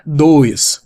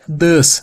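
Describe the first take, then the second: First: The vowel glides like 'oy' in boy. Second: The vowel is a short 'uh' sound. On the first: The speaker calls it wrong. "não é dois" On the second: The speaker calls it right. "A pronúncia é does"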